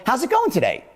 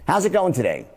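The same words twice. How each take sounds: First: GOING raised high with genuine interest; higher, caring "How's it going today?"; sounds really caring. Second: Said in the usual way. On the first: Shown as a demonstration. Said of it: "Which one sounds like I really care". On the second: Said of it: "watch two ways".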